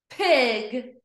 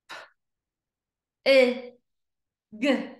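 First: PIG joined in one go; blended word. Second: P, i, g as separate letter sounds; long gaps between P, i and g; sounded out slowly. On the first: Teacher blending for pupils, PIG as one word. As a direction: say PIG whole. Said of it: "read each word fast". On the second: Teacher pointing to each dot, P-i-g sounded out. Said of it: "read each word slow". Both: Shown as a demonstration.

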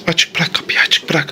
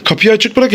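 First: Hushed whisper, barely voiced. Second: Said in the usual way. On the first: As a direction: whisper so Santa won't hear. Hiding, waiting for Santa.

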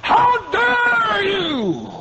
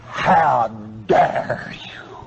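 First: Much higher, slow drawn-out shout; shouted rebuke. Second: Slow, breathless whisper of outrage; whispered rebuke. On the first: Preacher confronting the stingy flock in a slow roaring shout. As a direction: blast it across the tent. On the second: Preacher confronting the stingy flock in a slow whisper. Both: Acted. Preacher mocking self-satisfied givers.

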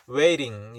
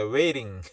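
First: Waiting with a hard, clear T; crisp textbook T in waiting; over-enunciate the T of waiting; wrong pronunciation. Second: Waiting with the T softened to an R-like tap; American waiting, T flapped. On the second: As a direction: let the T in waiting melt into a tap. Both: Shown as a demonstration. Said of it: "waiting이 아닙니다".

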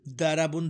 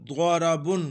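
First: दाराबुन with a light dental d; quick दाराबुन with no heaviness on the d; plain dāl sound. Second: द्वाराबुन with a thick, rounded emphatic first consonant; द्वाराबुन recited with ḍād, not dāl; heavy ḍād sound. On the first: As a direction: say दाराबुन from a thin dāl, unrounded. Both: Shown as a demonstration. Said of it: "दाराबुन दाल से होता है".

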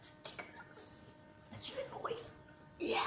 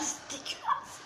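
First: Faint voiceless groan; disgusted whisper. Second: Slow breathless whisper of disgust. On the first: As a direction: choke the words out in a whisper. After tasting, gagging. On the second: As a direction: gasp it out, barely voiced. Tasting the disgusting mix. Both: Real, not acted.

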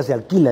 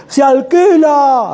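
First: Said in the usual way. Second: Slow, high, loud "Se alquila" drawn out in discovery; high, slow exclaimed "Se alquila"; excited reading. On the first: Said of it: "decía". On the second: Retold or imitated. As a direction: stretch "alquila" out loudly, excited by the sign. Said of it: "Así, así, no, decía".

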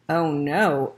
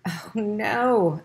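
First: Echoing thought. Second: Exclaimed. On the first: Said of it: "echoed Ralph's thoughts". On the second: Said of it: "exclaimed the mother". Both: A narrator's reading.

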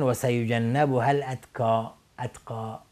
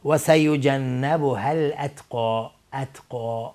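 First: الاتقی with a light front k; wrong qaf as k. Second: Slow recitation, heavy back q in الاتقی; الاتقی ending in dark, rounded qo; deep qaf. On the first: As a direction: show the mistaken thin ka in الاتقی. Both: Shown as a demonstration.

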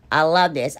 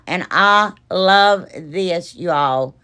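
First: Said in the usual way. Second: Slow, drawn-out admiring love; savouring. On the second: Real, not acted. Admiring her finished frame to viewers, slow and savouring. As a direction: linger lovingly on each word.

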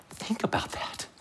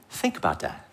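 First: Hushed whisper for emphasis; real, voiceless whisper to the audience. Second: Soft, low-voiced repeat; subdued, voiced aside to the audience; hushed, low. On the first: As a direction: whisper it so it sinks in. Preacher lets point sink in. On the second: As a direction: say it low and quietly, letting it sink in. Preacher repeats point quietly. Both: Real, not acted.

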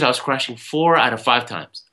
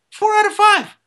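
First: Said in the usual way. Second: "Four out of five" said much higher and louder; "Four out of five" echoed high and loud, stressing "out"; emphatic disbelieving repeat. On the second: Shown as a demonstration. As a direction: jump way up in pitch to hammer the number.

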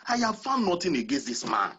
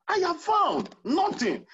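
First: Said in the usual way. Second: Higher and slower, leaning on found; insistent repeat. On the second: Retold or imitated. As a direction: repeat Pilate's verdict, driving home found.

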